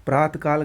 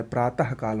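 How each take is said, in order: First: प्रातकाल run on as "praat-kaal"; no h between the halves of प्रातकाल; wrong pronunciation. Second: प्रातः काल as "praa-tah kaal"; correct pronunciation. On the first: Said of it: "गलत है". (प्रातकाल बिना विसर्ग के) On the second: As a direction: sound the h ending प्रातः. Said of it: "होगा". (प्रातः में विसर्ग बोलें) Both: Shown as a demonstration.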